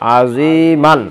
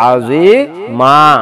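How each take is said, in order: First: The word ends with an n sound. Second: The word ends with a long a.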